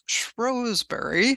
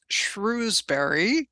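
First: The name is said with a local English pronunciation. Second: The name is said with an American pronunciation. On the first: This is how local people say the name. The speaker calls it right. "they actually pronounce as Shrewsbury or something close to that" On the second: This is how an outsider reads the name. The speaker calls it wrong. "I always read as Shrewsbury, you know, with my American accent"

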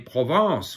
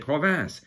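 First: The second syllable has a French nasal vowel. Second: The second syllable has an English vowel and n. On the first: The speaker calls it right. "when they say Provence" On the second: The speaker calls it wrong. "they'll say Provence, which is province"

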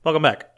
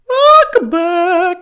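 First: It is said at a medium pitch. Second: It is said at a high pitch.

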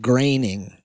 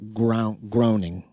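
First: The first syllable rhymes with gray. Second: The first syllable rhymes with grow. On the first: The speaker calls it right. "it's pronounced graining" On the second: The speaker calls it wrong. "not groaning"

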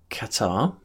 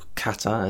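First: The stress falls where English speakers usually put it. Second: The stress falls where native speakers put it. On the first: The speaker calls it wrong. "we put the stress on the wrong part of the word" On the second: The speaker calls it right. "as it should be pronounced"

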